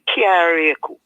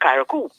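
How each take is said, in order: First: The name is said with four syllables. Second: The name is said with three syllables. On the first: This is how the island people say it, following the original spelling. "how you say Kayaryaku" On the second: This is how those raised with the modern spelling say it. "C A R R I A C O U is Karakou"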